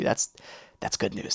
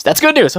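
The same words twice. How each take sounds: First: Whispered that's good news; relieved whisper; whispered relief. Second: Higher, louder that's good news; higher, louder relief; relieved cheer. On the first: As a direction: breathe it out in relief under your breath. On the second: Repeat relief. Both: Real, not acted.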